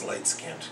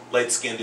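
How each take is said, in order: First: Said in the usual way. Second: "Light-skinned" said as light-skin-ded; extra syllable. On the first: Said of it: "a word that I've come to". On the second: Shown as a demonstration. Teacher explains his pupil's word, "Light-skinned" as skin-ded. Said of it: "understand as light-skinned".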